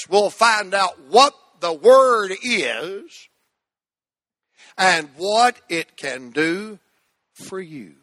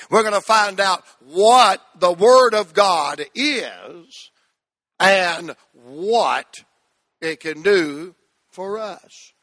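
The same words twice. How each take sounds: First: Slow, weighted phrase to repeat; slow recitation. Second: Slow, firm repeat of the phrase; slow recitation. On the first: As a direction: lay it out slow for the church. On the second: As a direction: say it slow with them. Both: Shown as a demonstration. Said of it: "Say that with me".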